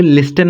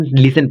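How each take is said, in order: First: लिस्टन with the t sounded; wrong listen. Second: लिसन said without any t; silent t. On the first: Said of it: "लिस्टन नहीं पढ़ोगे". (लिस्टन, t बोलकर गलत उच्चारण) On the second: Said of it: "यहाँ पर टी silent". (लिसन, t silent रखकर) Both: Shown as a demonstration.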